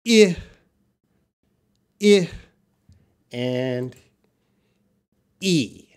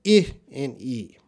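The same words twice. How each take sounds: First: I and E drawn out slowly, one by one, E almost breathed; slow careful vowel demo for learners; vowel sound demo. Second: I and E said quickly, back to back; quick recap of the two vowel sounds; quick vowel demo. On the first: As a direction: spell out each vowel sound slowly with long gaps. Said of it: "Well, the sounds are". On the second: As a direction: rattle off the two vowels fast. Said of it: "I'm gonna say that quick". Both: Shown as a demonstration.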